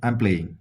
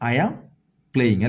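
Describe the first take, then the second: First: I am is shortened into one syllable. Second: I am is said as two full words. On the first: "ഇംഗ്ലീഷുകാർ എങ്ങനെ പറയും?" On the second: "നമ്മളെങ്ങനെയാ പറയാ?"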